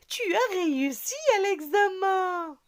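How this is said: Lively, joyful tone full of surprise. It shows surprise and joy. "il y a l'effet de la surprise, de la joie"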